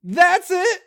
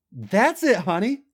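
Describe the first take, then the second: First: Very high, loud ecstatic cry; ecstatic shout. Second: Higher, louder encouraging coax. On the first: Acted. Climax cry, far louder. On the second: A narrator's reading. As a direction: urge him on kindly. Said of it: "Trish said encouragingly".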